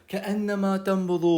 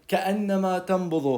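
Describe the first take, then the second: The two takes are said the same way.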